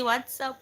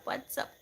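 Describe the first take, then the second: First: Higher, sing-song greeting to a pet; cooing at dog. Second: Soft breathy whisper to a pet; whispered greeting to dog. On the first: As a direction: coo it like greeting your dog. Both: Real, not acted.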